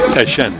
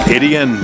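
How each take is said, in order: First: The name is said as 'Ashan'. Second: The name is said as 'Etienne'. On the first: This is how people in the home region say it. "in South Louisiana, it's pronounced Trevor Ashan" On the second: This is how people around Clemson say it. "they pronounce it Etienne"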